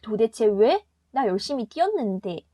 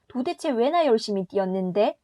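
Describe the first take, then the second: First: There is a pause after 도대체 왜. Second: It is said as one phrase without pause.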